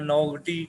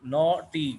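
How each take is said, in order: First: The gh is sounded as a g. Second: The gh is silent, not sounded at all. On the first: The speaker calls it wrong. "या नौगटी, कुछ और नहीं पढ़ना" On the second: The speaker calls it right. "जी एच खामोश है इसमें"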